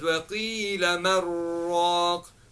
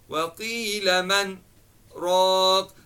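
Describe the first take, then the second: First: The nasal sound merges straight into the r. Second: A brief breathless stop follows the nasal sound. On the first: "this scene would be taken out and then the noon sakin will be incorporated into the ra" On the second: "This pause is called sakta, right? That means you stop the sound but not the breath"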